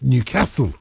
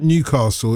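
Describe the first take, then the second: First: "Newcastle" with a short flat "a" as in cat; local pronunciation. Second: "Newcastle" with a long "ah" in castle; non-local pronunciation. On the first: Host correcting to the local name, short-A pronunciation. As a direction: say "Newcastle" as New-CASS-ul. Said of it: "it's Newcastle". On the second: Host showing how it is not said, long-A pronunciation. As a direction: say "Newcastle" as New-CAH-sul. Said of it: "it's not Newcastle". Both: Shown as a demonstration.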